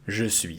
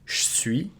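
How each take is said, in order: First: Both words are said in full. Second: The E of 'je' is dropped. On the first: It sounds proper and formal. "this is the proper way of pronouncing it" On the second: It sounds less formal. "devocalize the E and make it je suis"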